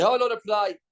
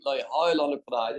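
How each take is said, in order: First: Mocking excuse. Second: Said in the usual way.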